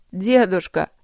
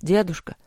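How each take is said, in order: First: Loud, drawn cry falling away; anguished, louder appeal; despairing moan. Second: Understated, quick call to grandfather; lightly babbled plea; a touch of worry, not cried out; mumbled appeal. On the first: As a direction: call out to grandfather in despair. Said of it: "в отчаянии простонал Вэй". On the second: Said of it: "забормотал Вэй". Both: A narrator's reading.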